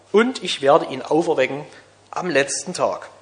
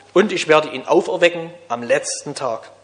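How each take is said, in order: Both takes have the same delivery.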